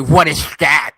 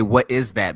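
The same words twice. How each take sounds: First: The s sound is lisped. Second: The s sound is clear. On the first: The speaker calls it wrong. "I wouldn't say what is that" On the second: The speaker calls it right. "I would say what is that because I don't have a lisp"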